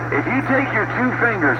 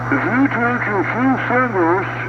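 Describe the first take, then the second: First: The voice sounds normal and clear. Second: The voice sounds muffled, as if blocked by fingers.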